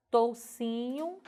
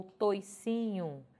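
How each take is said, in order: First: "toucinho" devagar, com OU claro; variante com OU. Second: "toicinho" devagar, com OI claro; variante com OI. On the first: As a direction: marque o U de "toucinho". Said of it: "ora grafado com ou". ("toucinho" dito tou-ci-nho) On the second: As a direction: marque o I de "toicinho". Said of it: "ora vou ter grafado com oi". ("toicinho" dito toi-ci-nho) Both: Shown as a demonstration.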